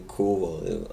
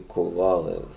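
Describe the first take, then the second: First: The name is said the American way. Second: The name is said the non-American way. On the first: "that's the American pronunciation" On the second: "Where I'm from, we say"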